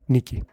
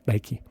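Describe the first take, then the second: First: The name is said with Greek pronunciation. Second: The name is said with English pronunciation.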